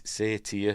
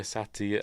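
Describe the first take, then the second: First: "satyr" with a long first vowel, SAY-teer; long-vowel pronunciation. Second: "satyr" with a short first vowel, SAT-ee-uh; short-vowel pronunciation. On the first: Unsure of the name, trying "satyr" as SAY-tee-uh. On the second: Unsure of the name, trying "satyr" as SAT-ee-uh. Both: Real, not acted. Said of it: "how do you pronounce it".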